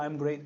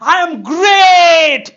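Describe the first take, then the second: First: It is said flatly, without energy. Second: It is said loudly, with full energy.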